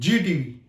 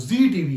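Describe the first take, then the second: First: The name begins with a 'j' sound. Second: The name begins with a 'z' sound. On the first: The speaker calls it wrong. "लोग बोलते हैं जी TV, जी TV नहीं है" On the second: The speaker calls it right. "वो जी TV है। जहां ज आ गया, जेड आ गया"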